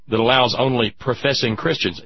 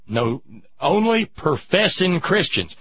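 First: Said in the usual way. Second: "only" drawn out and stressed, slowly. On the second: Shown as a demonstration. Host correcting himself, stressing "only" slowly. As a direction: lean hard and slow on "only".

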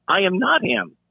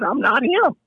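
First: Full "I am" with "not" punched, falling end; stress on "not". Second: Pitched-up protest on "I'm not him"; insist, ending up on "him"; high insistent denial. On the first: Officer insisting to detainee, "not" stressed, falling. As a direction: spell it out, leaning on "not". Repeats it word by word. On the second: Officer to kicking detainee, high insistent "him". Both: Retold or imitated.

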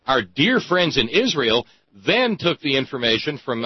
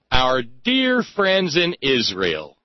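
First: Said in the usual way. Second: Slow, drawn-out sarcastic "dear friends"; dripping irony, said slowly. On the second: Real, not acted. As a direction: lean on "dear" with slow mock affection. Sarcastic jab at Israel.

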